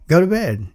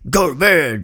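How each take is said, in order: First: It is said in a calm, gentle tone. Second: It is said in a harsh, angry tone. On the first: It is a harmless, friendly remark. "all they were saying was" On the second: It is a hostile, dismissive order. "Not like"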